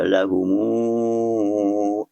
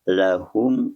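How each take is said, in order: First: The m is followed by a long u vowel. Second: The word ends on a closed m.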